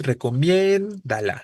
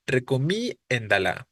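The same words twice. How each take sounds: First: Slow "recomiéndala" with the accent on the E; stress on the E. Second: Slow "recomiéndala" leaning on the I, not the E; misplaced stress. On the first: Teacher correcting the pronunciation for the students. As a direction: hit the E of "recomiéndala" clearly. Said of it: "Pero es". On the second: Teacher imitating the spelling students wrongly use. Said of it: "si yo lo pronuncio como está escrito". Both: Shown as a demonstration.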